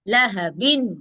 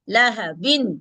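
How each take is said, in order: Both takes have the same delivery.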